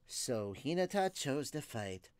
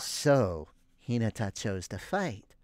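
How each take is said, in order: First: The voice is a plainer, less creepy character voice. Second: The voice is a creepier, more sinister character voice.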